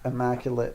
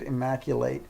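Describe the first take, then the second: First: The last syllable sounds like 'it'. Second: The last syllable sounds like 'eight'. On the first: The speaker calls it right. "it's got the sound it at the end rather than eight" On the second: The speaker calls it wrong. "I might have said immaculate"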